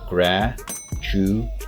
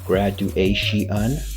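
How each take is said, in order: First: The ending is one syllable, shun. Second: The ending is split into two syllables, she-un. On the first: The speaker calls it right. "it's actually graduation, shun" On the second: The speaker calls it wrong. "tempted to say she'un"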